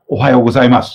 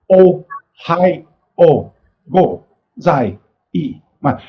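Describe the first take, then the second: First: Said in the usual way. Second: "Ohayo gozai-, ma-" broken into separate syllables with gaps; single syllables. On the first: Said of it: "if I say". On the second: Shown as a demonstration. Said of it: "are pronounced in single syllables".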